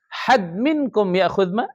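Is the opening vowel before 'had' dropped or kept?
dropped. The first word starts directly with h. This is how Hadramis speak. "Orang Hadramut enggak ahad minkum"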